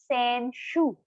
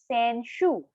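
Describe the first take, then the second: Both takes have the same delivery.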